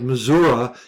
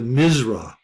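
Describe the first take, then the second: First: The word is said with all its syllables. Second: The word is clipped into two short syllables.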